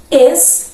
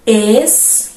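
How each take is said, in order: First: Estrela lifted high, syllables split; higher syllable demo. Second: Estrela spoken slowly as es-tre-la; syllable-timed demo. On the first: Teacher repeating Estrela for class, raised and split. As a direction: sound out Estrela with a rise. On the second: Teacher sounding out Estrela for students, syllable by syllable. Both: Shown as a demonstration. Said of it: "Vejam como eu pronuncio".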